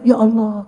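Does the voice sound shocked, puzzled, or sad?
shocked. It sounds shocked and startled.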